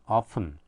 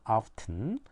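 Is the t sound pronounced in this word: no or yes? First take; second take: no; yes. First: The t sound is left silent. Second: The t sound is clearly pronounced. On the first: "트 발음을 안 하면은" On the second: "트 발음을 하게 되면"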